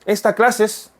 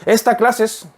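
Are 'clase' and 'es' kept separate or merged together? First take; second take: merged; merged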